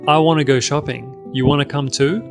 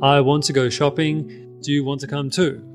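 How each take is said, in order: First: "Want to" is reduced to a quick "wanna". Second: "Want to" is said fully and carefully.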